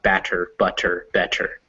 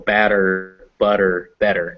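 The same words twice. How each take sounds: First: The middle consonant is a crisp t sound. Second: The middle consonant sounds like a soft d. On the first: The speaker calls it wrong. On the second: The speaker calls it right. "they're actually pronounced "da.""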